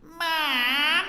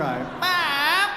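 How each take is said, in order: First: Put-on bright twangy childish call of Mom. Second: Louder, more annoying twangy call of Mom; annoying twang. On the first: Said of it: "I'll show you what twang is". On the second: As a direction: whine Mom as annoyingly as a kid. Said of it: "You can be far, far more annoying than that". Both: Shown as a demonstration.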